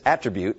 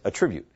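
First: It is said with the noun pronunciation. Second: It is said with the verb pronunciation. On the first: It names a quality or characteristic. "So the noun form is attribute" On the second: It means to credit something to someone. "and the verb form is attribute"

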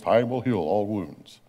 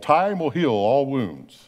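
First: It is said in a deep, announcer-style voice. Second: It is said in the speaker's normal voice.

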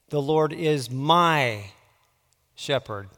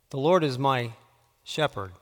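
First: The emphasis falls on the word 'my'. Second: The emphasis falls on the word 'shepherd'. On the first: "putting the emphasis on a different word each time" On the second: "putting the emphasis on a different word each time"

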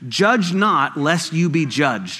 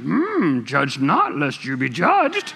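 First: It is said in his normal voice. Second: It is said in a Yoda voice.

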